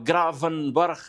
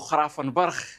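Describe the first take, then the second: First: The name begins with a hard g sound. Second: The name begins with a rasping kh sound.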